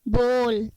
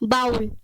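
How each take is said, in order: First: The vowel sounds like 'oh' as in go. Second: The vowel sounds like 'ow' as in cow. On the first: The speaker calls it right. "सही pronunciation क्या है? बोल।" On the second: The speaker calls it wrong. "बाउल बिल्कुल गलत pronunciation है"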